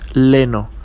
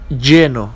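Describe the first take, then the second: First: The word begins with an L sound. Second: The word begins with a Y sound. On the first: The speaker calls it wrong. "not leno" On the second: The speaker calls it right. "And we have lleno"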